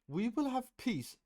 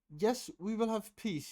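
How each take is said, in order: First: The voice is thick and strained. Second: The voice is clear and firm.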